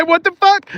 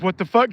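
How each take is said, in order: First: Much higher, louder mock disbelief; imitated outburst, pitched way up; retold shocked outburst. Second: Mildly raised quote, rising at the end; imitated question, building toward amazement; retold disbelief. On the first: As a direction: quote it again as a high-pitched cry. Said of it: "Kobe said". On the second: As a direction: quote a viewer's disbelief, fairly restrained. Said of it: "He said".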